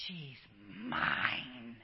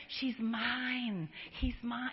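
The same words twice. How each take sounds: First: Low, slow and tender; God's tender claim. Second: Said in the usual way. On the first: Acted. God looking at his child, low and tender. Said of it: "He looks at you and goes". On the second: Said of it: "like me with that baby".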